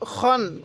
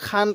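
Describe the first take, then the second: First: The vowel is dark and rounded, like 'o'. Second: The vowel is open and light, like 'a'. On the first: The speaker calls it right. "তাহলে খন খিন খুন" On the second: The speaker calls it wrong. "এরকমভাবে পড়ব না"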